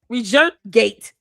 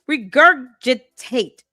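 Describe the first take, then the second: First: A syllable is dropped from the middle of the word. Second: All four syllables of the word are said. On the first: The speaker calls it wrong. "Now it's regur regurgate" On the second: The speaker calls it right. "if you cannot pronounce it correctly"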